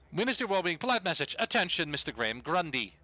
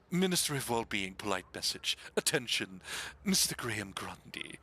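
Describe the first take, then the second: First: It is read in the speaker's ordinary voice. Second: It is read in a put-on character voice.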